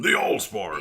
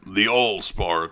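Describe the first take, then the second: First: A forceful, gravelly Optimus Prime voice. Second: A weak, not very gravelly Optimus Prime voice.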